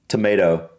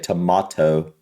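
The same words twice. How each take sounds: First: It is said in an American accent. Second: It is said in a British accent.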